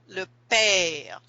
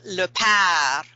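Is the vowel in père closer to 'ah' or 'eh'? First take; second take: eh; ah. First: The vowel in père sounds like 'eh', as 'pear'. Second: The vowel in père sounds like an 'ah' sound. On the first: This is the standard French pronunciation. "in standard French, they'd say le père. Like you eat a pear" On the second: This is the Cajun French pronunciation. "But Cajuns have a kind of an A sound"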